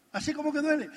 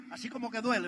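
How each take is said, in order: First: "duele" said higher, with a falling, aching tone; emphatic repeat. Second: Said in the usual way. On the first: Real, not acted. Telling the audience that giving up walks hurts, a higher emphatic repeat. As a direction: repeat it higher to make the sting land.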